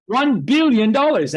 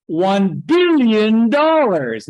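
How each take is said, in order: First: One billion dollars tossed back higher; mocking echo. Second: One billion dollars dragged out slowly and louder; drawn-out demand. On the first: Bankers echoing Obama's price, higher, mocking. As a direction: parrot the price back in mock awe. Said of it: "and they're going". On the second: Retold or imitated. Obama naming his price, slow and louder. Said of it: "an Obama comes along and says".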